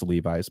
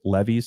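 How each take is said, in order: First: The second syllable sounds like 'vize'. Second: The second syllable sounds like 'vees'. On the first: It is the stadium's real name. "We we know it's Levi's" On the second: It plays on the family name Levy. "I guess you could also pronounce it Levi's Stadium"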